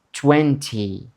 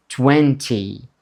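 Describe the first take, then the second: No difference in how they are said.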